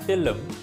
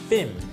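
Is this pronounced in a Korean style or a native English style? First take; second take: Korean style; native English. First: It is pronounced with a Korean-style accent. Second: It is pronounced with a native English accent. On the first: The speaker calls it wrong. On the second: The speaker calls it right.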